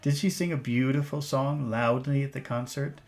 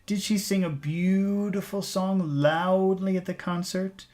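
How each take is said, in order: First: It is said at a normal pace and tone. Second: It is said slowly with exaggerated delivery. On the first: "That's normal. Normal pace, normal tone" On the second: "I'm exaggerating for you"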